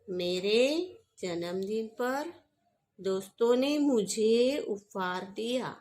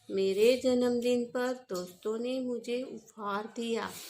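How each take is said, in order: First: The stress is on मुझे. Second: The stress is on उपहार.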